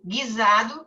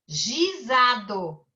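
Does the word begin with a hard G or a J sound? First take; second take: hard G; J sound. First: It begins with a hard G sound. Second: It begins with a soft J sound. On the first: The speaker calls it right. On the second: The speaker calls it wrong.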